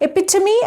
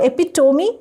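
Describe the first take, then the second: First: "Epitome" said "eh-PIT-uh-mee"; "Epitome" as four syllables, short "tuh" inside; correct pronunciation. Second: "epitome" said "epi-TOH-mee"; "epitome" with a full round o in "tome"; wrong pronunciation. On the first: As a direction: say "Epitome" with a weak, unrounded third syllable. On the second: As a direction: say "epitome" with a long "toe" in it. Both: Shown as a demonstration. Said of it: "Epitome and not epitome".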